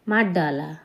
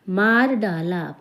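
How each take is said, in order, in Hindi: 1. जल्दी बोलने पर r, d में मिल जाता है। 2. हर शब्द पूरा और अलग-अलग बोला गया है। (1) "बहुत जल्दी में बोलें ... र की जगह डा हो गया" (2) "जब हम संभल के बोलते हैं तो हम पूरा बोलते हैं"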